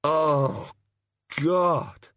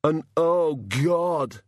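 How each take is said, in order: First: "Oh, God" as a pained morning groan, pitched higher; imitating a groaning drinker. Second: "Oh, God" said as a name, both words lifted, higher, like a title. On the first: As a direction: mimic someone clutching their aching head. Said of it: "they clutch their head and say". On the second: Acted. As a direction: pronounce "oh, God" as his name, not a cry. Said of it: "he corrected".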